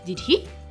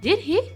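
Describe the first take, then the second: First: The voice falls at the end. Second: The voice rises at the end. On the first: "the more I use the falling intonation" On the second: "And that's actually a rising intonation"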